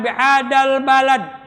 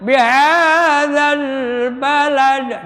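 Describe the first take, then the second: First: The consonants are blurred and not clearly heard. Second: The consonants are articulated clearly and distinctly. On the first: The speaker calls it wrong. "Jangan bihadal balad. Kurang bagus ya" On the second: The speaker calls it right. "Harus terdengar"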